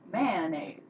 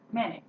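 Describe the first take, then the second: First: The word is said in a playful, joking way. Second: The word is said in a plain, serious way. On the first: The speaker calls it wrong. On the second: The speaker calls it right.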